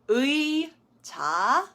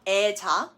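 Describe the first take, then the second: First: The first vowel is a gliding ui sound. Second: The first vowel is a plain e sound. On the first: The speaker calls it right. "It does need to be said as 의자" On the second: The speaker calls it wrong. "So it's not 애자"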